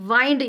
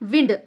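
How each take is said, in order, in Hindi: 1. स्वर लंबा है, जैसे find में। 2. स्वर छोटा है, जैसे pinned में। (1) "जैसा कि फाइंड बोलते ना अपन, वैसा वाइंड" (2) "जैसा पिंड रहता वैसा इसको प्रोनाउंस"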